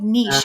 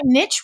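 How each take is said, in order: First: The vowel is long, rhyming with leash. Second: The vowel is short, rhyming with itch. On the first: The speaker calls it right. "I like niche. It's nice and smooth" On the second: The speaker calls it wrong. "niche rhymes with the B word too much"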